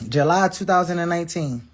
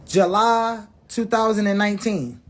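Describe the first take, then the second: First: Said in the usual way. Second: Slow emphatic read. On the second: Shown as a demonstration. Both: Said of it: "It say, what it say, y'all?".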